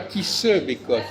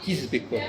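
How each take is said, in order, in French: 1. La voyelle de se est bien prononcée. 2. La voyelle de se est supprimée. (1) "Il ne dit pas qui se bécote" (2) "il dit qui se bécote"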